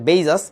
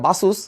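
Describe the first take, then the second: First: The first vowel is an 'ay' sound. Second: The first vowel is an 'ah' sound. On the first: This is the actual pronunciation. The speaker calls it right. "Actually উচ্চারণটা হচ্ছে বেইজাস" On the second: This is how many people say it. The speaker calls it wrong. "এটাকে অনেকে উচ্চারণ করে বাসুস"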